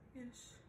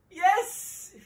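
First: It is said in a sad tone. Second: It is said in a happy tone.

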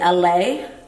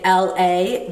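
First: It is run together like one word. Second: It is said as two separate letters. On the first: This is how long-time locals say it. "they say LA" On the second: This is how outsiders say it. "people don't say LA"

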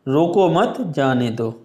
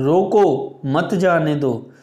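First: A pause follows 'mat', not 'roko'. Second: A pause follows 'roko', which is said loudly. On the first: Do not stop them; let them go. "इसका मतलब क्या है, जाने दो" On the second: Stop them; do not let them go. "रोको को हम जोर से बोलेंगे क्योंकि यहाँ पर कॉमा लगा हुआ है"

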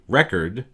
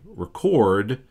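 First: The stress falls on the first syllable. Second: The stress falls on the second syllable. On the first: "you're emphasizing the first syllable" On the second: "you're emphasizing the second syllable by adding stress to it"

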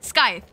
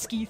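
First: The word starts with s and rhymes with tithe. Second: The word starts with sk and ends in eeth. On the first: The speaker calls it right. "it's a scythe, is it not?" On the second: The speaker calls it wrong. "I never say this tool right. I call it a skeeth"

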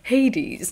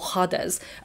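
First: The name has an anglicised English pronunciation. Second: The name has a more Greek-style pronunciation. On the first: "That's the anglicised version of saying his name" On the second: "I believe it's more pronounced Hades"

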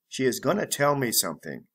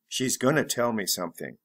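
First: She is is said as two full words. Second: She is is contracted into one syllable. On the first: "full be gonna" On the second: "Reduced or contracted form"

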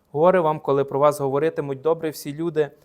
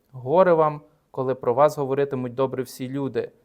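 No difference in how they are said.

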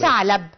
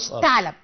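First: The word begins with a 'th' sound. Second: The word begins with an 'f' sound. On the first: The speaker calls it right. "يبقى انا بنطق الحرف الصحيح" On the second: The speaker calls it wrong. "غلط"

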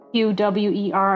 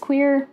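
First: The name is spelled out letter by letter. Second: The name is said as one word. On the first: "I'm guessing it's just an acronym" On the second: "which I want to pronounce as queer"

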